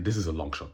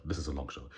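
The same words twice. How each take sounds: First: Said in the usual way. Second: Softer muttered aside; quiet aside. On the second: Real, not acted. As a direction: say it under your breath.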